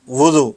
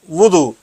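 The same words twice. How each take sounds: First: وضو said the loose everyday Urdu way; common mispronunciation. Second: وضو said carefully with its Arabic sounds; correct Arabic pronunciation. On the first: Teacher showing students the common slip, وضو in everyday pronunciation. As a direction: say وضو as people commonly do, not as in Arabic. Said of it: "ہم عموماً وضو ہی بول دیتے ہیں". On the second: Teacher urging religion students to say it properly, وضو in Arabic pronunciation. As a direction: model وضو as it is pronounced in Arabic. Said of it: "تو اس کا تلفظ ویسے ہی بولے". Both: Shown as a demonstration.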